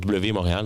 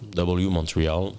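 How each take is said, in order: First: The name is pronounced with French sounds. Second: The name is pronounced with English sounds.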